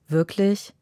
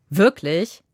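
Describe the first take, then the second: First: It sounds disappointed and let down. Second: It sounds sharp and annoyed.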